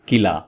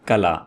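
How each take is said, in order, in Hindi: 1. पहला स्वर 'i' की तरह बोला जाता है। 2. पहला स्वर 'a' की तरह बोला जाता है। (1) "आमतौर पर बोला जाता है किला... मेरे ख्याल में गलत है" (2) "इसका सही तलफ़ुज़ है कला"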